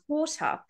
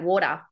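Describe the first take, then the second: First: The T in the middle is crisp and clear. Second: The T in the middle is soft like D. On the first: "they use like the true T" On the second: "Most Australians don't say that"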